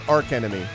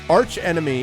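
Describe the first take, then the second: First: The first word ends with a k sound. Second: The first word ends with a ch sound. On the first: The speaker calls it wrong. "It's not arc enemy" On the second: The speaker calls it right. "it's definitely um, arch enemy"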